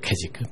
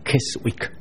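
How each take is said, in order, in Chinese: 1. 这个词读的时候没有 w 音。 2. 这个词读的时候有 w 音。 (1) "那个字应该读Keswick" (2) "不要读Keswick"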